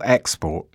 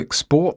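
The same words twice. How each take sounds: First: The stress is on the first syllable. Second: The stress is on the last syllable. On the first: The word is used as a noun. "Export here is a noun. Stress on the first syllable" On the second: The word is used as a verb. "Export is a verb. Stress on the last syllable"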